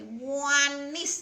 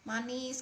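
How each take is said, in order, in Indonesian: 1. Kata "manis" diucapkan dengan intonasi yang hidup dan bervariasi. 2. Kata "manis" diucapkan dengan suara datar, monoton. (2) "jangan datar"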